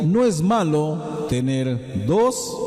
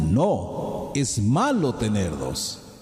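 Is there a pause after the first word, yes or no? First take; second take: no; yes. First: It is said without a pause after no. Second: There is a pause after no. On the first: Having two is not bad. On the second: No; having two is bad.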